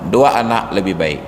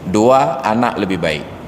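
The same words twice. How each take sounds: First: The phrase runs on without a pause. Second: There is a pause after the first word. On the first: Two children is better. "Orang yang baca sekali hanya satu ketemu makna" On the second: Second point: the child is better. "ketika diulang-ulang bacaan ketemu makna yang berbeda"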